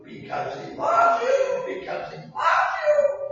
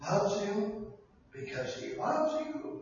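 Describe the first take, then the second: First: Much higher, slow, rising to a shout; building to a shout. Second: Much softer, slow, loves you; soft start. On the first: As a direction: build it up and cry it out. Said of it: "repeated refrain building". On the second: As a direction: say it gently first. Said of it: "repeated refrain, quiet then shouted". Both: Acted.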